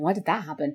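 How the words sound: It is said in an annoyed tone.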